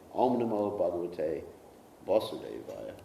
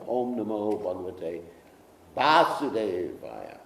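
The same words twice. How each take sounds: First: The first vowel of Vasudevaya is short. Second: The first vowel of Vasudevaya is long. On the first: The speaker calls it wrong. "We don't say" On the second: The speaker calls it right. "we start the Bhagavatam by"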